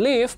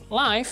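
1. Vokalnya terdengar seperti 'i' pada 'give'. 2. Vokalnya terdengar seperti 'i' pada 'five'. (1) "berarti tinggal" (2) "maka diartikan secara langsung"

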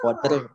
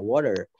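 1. Konsonan tengahnya adalah t yang jelas dan tegas. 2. Konsonan tengahnya adalah ketukan lembut yang mirip d. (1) "Bukan water, nggak jelas kayak gitu kan?" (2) "Tapi lebih kayak ke sedikit gitu D-nya"

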